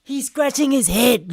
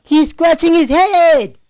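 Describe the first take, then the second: First: High, slow, without shouting; incredulous repeat. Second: High, loud, drawn-out exclamation; incredulous yell. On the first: Reactor marvelling at the hesitating boyfriend, toned-down disbelief. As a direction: restate it in drawn-out disbelief. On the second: Reactor amazed at the hesitating boyfriend, incredulous yell. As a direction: cry it out in disbelief, stretching the words. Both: Real, not acted.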